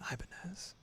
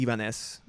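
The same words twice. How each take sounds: First: The name is said with English pronunciation. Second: The name is said with Spanish pronunciation. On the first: The speaker calls it right. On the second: The speaker calls it wrong. "speaking Spanish, that's how I would initially read it"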